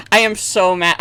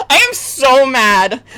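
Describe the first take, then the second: First: Said in the usual way. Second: Slow, loud furious "mad"; mad shout. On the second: Real, not acted. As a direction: yell "I am so mad" drawn out. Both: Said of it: "I've never been this mad on stream".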